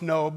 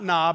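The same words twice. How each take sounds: First: The vowel is long, rhyming with robe. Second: The vowel is short, rhyming with job. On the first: The speaker calls it right. "it's Nob, because we know Job looks like Job, but it's Job" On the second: The speaker calls it wrong. "it's not Nob"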